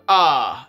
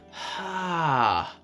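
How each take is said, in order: First: It starts with a clean, sharp glottal attack. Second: It starts with a breathy puff of air. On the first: "a glottal onset, like a muscle bass" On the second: "an aspirate, which is an air-based one"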